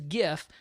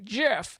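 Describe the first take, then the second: First: It begins with a hard G sound. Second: It begins with a soft G sound. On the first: It follows the G in graphics. The speaker calls it right. "everyone pronounced it as GIF" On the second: It is the creator's late-announced pronunciation. The speaker calls it wrong. "it's actually GIF"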